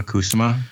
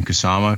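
First: Kusama said KOO-suh-ma, stress up front; trying another pronunciation. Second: Kusama said koo-SAH-ma, stress on the middle; trying a pronunciation. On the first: Host unsure of director's name, Kusama tried as KOO-suh-ma. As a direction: question Kusama with a stressed KOO and weak middle. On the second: Host unsure of director's name, Kusama tried as koo-SAH-ma. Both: Shown as a demonstration. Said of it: "I never say her name out loud".

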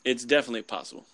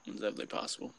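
First: Said in the usual way. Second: Breathy whispered echo, much softer. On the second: Shown as a demonstration. To his co-host, a whispered echo of the same words. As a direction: repeat it under your breath as an aside.

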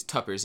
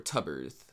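First: "tuppers" said with a crisp p sound in the middle; chosen pronunciation. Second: "tubbers" said with a soft b sound in the middle; alternate pronunciation. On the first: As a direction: settle on "tuppers" with a clear p. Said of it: "But I believe it's tuppers". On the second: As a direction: try "tubbers" with a b, unsure. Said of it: "I'm not sure the correct pronunciation on it". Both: Shown as a demonstration.

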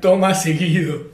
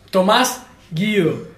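First: "Toma seguido" read slowly through a laugh, the added E making the joke; punchline reading. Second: "Tomás Guido" read out slowly, as the street name; reading the meme name. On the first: Telling friends the meme's punchline, slow and laughing. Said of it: "alguien le agregó una E y decía". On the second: Reading a meme to friends, slow deliberate name. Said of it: "un meme que decía". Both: Retold or imitated.

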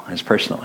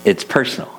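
First: Said in the usual way. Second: It's personal lifted high and pressed louder; a sudden heavy emphasis on it's personal; emphatic. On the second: Real, not acted. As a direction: lean hard on it's personal. Repeats phrase for emphasis.

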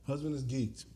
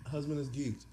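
No difference in how they are said.

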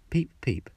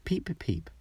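First: Light high peeps; first cheep out of the egg; newborn chick peeping. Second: High strange peeps; an ugly duckling's first cry; odd duckling peeping. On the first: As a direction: peep like a tiny hatchling. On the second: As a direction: peep like a big clumsy chick. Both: A narrator's reading.

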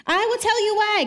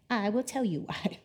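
First: High, loud and emphatic, hitting "tell" hard; God thundering back at the people; booming divine retort. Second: A soft, wry aside as God; quiet imagined retort. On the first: Acted. Pastor reading God's answer to the complainers, loud and emphatic. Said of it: "God responds". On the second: Retold or imitated. Pastor imagining God answering the people, quiet and wry. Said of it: "imagine God being like".

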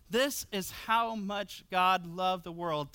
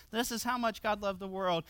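First: "This is how much God loved the world" read slowly, every word weighed; slow emphatic reading. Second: Said in the usual way. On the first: Shown as a demonstration. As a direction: read "This" out slowly and deliberately, letting each word land. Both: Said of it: "Take this in fresh".

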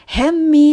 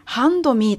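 First: "Hand me" with the d dropped, as "hem-me"; reduced HAND ME. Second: "hand me" with the d sounded, as "hando mee"; full HAND ME. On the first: Teacher showing learners the sound change, "Hand me" as "hem-me". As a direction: blend "Hand me" into "hem-mee", no d. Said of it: "というふうに聞こえます". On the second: Teacher spelling out the real words for learners, "hand me" with a clear d. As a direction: separate "hand" from "me" and voice the d. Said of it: "というふうに言っています". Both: Shown as a demonstration.

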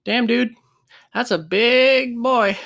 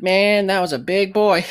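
First: Slow, higher, awed mock voice; awed player. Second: Lighter mock awe, a bit higher; a quicker retelling of the same awed remark; awed player. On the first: Tiny player telling a teammate about being crushed, awed mock. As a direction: marvel at the big guy, drawn out. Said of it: "all I heard was". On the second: Tiny player to his buddy after getting up, light mock awe. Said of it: "he was like".

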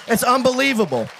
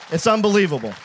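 First: Higher, ringing cry of wonder; marvelling exclamation. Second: Said in the usual way. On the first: Real, not acted. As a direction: exclaim it in amazement. Preacher marvels after climax.

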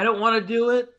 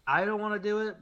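First: Higher and louder, a mock whine; whiny protest. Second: Said in the usual way. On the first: Mocking a reluctant YouTuber, loud whiny protest. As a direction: complain it out loud like a sulking creator.

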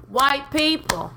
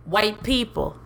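First: Drawn-out sassy call-out. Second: Said in the usual way. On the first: Shown as a demonstration.

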